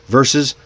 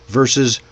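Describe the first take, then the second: The two takes are said the same way.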